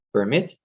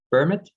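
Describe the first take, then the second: First: PerMIT, final syllable strong; "permit" as per-MIT, first syllable light; stress on second syllable. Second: PERmit, first syllable strong and clear; "permit" as PER-mit, second syllable light; stress on first syllable. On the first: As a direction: lean on the end of "permit", like the verb. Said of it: "there was stress on the second syllable". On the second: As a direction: punch the start of "permit", like the noun. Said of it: "there was stress on the first syllable". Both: Shown as a demonstration.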